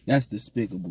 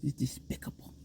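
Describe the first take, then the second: First: It is said in his normal voice. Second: It is said in a Daffy Duck voice.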